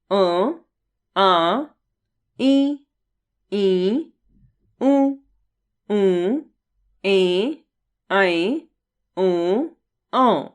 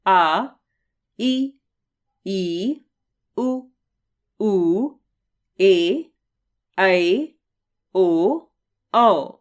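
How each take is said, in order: First: "अ, आ, ई" each sounded through both mouth and nose; nasal vowels. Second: "आ, ई, ऊ" voiced through the mouth only, with no nasal sound; teacher reads the oral vowel list in the mouth alone. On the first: Teacher sounding nasal vowels "अ, आ" through mouth and nose for the class. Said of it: "मुख व नाक दोनों से होता है". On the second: Teacher sounding "आ, ई, ऊ" through the mouth only for the class. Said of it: "केवल मुख से होता है". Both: Shown as a demonstration.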